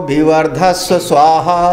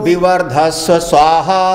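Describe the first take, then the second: The two takes are said the same way.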